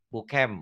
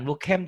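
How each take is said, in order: First: Bukem with a short, muted vowel in the last syllable; vowel demonstration. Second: Bukem with an open E in the last syllable; the wrong bukem, with a clear "eh"; mispronunciation demonstration. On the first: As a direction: say bukem as "boo-kum", not "boo-kem". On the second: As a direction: say bukem as "boo-kem". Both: Shown as a demonstration. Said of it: "bukan bukem tapi ya".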